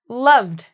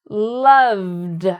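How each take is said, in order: First: The word is said more quickly. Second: The word is said slowly and carefully. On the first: "And then I start trying to do it faster" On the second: "combine them into one word"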